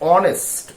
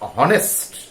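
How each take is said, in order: First: The word starts with a vowel, no h sound. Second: The word starts with an audible h sound. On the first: The speaker calls it right. "H is silent and O is emphasized" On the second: The speaker calls it wrong. "not honest"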